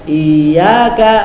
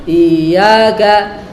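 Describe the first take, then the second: The two takes are said the same way.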